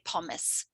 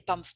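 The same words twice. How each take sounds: First: The word is pronounced the German way. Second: The word is pronounced the French way. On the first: "which is a horrible German pronunciation of the word pomme" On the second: "des pommes frites"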